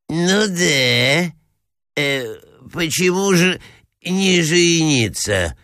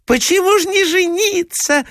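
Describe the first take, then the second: First: Put-on higher, halting old-prince voice; befuddled assenting prince. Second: Very high, squealed chorus-of-ladies voice; crying out. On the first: Confused prince echoes the clamouring ladies, halting assent. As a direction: agree hesitantly, dragging out the last words. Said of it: "поддакивал князь, сбитый с толку". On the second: Ladies press the prince from all sides, high insistent cry. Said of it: "закричали со всех сторон". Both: A narrator's reading.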